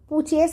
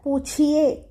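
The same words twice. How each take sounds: First: The ch sound is soft and light. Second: The ch sound is pressed hard. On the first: The speaker calls it wrong. "இந்த இடத்துல பூச்சியே சொல்லாதீங்க" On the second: The speaker calls it right. "ச கொஞ்சம் அழுத்துங்க"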